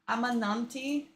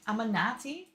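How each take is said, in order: First: The name has an extra n sound. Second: The name has no extra n sound. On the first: The speaker calls it wrong. "I said it wrong" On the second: The speaker calls it right. "It's not with the N"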